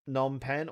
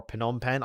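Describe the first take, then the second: First: Phnom Penh with the P silent, starting on N. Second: Phnom Penh with the initial P voiced as its own beat; sounded P. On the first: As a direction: say Phnom Penh as "Nom Pen". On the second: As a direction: say Phnom Penh as "Puh-nom Pen". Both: Shown as a demonstration. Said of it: "I always get the".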